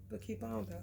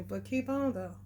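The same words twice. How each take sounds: First: Fading to quiet. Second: Said in the usual way. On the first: Shown as a demonstration.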